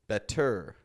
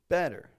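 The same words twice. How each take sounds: First: The stress is on the second syllable. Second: The stress is on the first syllable. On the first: The speaker calls it wrong. "to Americans it sounds a little awkward" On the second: The speaker calls it right. "Strong in the beginning, kind of weaker on the end"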